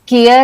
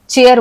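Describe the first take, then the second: First: The word begins with a k sound. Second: The word begins with a ch sound. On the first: The speaker calls it wrong. "इसको हम केयर या सेयर नहीं बोलते" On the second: The speaker calls it right. "हम इसे चेयर बोलते हैं क्योंकि सी एच का उच्चारण होता है च"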